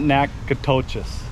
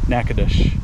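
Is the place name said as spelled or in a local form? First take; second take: as spelled; local form. First: The name is sounded out letter by letter. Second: The name is said in a different local form. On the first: The speaker calls it wrong. "Not Nacogdoches, as it's spelt" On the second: The speaker calls it right. "as it's not spelt"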